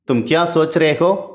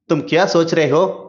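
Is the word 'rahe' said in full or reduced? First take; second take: reduced; reduced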